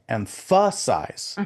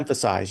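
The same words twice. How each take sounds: First: The stress is on a later syllable. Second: The stress is on the first syllable. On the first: The speaker calls it wrong. "you don't say" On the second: The speaker calls it right. "You say"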